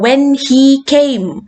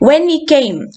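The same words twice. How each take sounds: First: The word 'he' is said fully and emphatically. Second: The word 'he' is reduced to a weak 'e'. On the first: The speaker calls it wrong. "എന്നെടുത്ത് പറയേണ്ട കാര്യമില്ല" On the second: The speaker calls it right. "e എന്ന് മാത്രം കേൾക്കുന്ന സിറ്റുവേഷൻസും ഉണ്ട്"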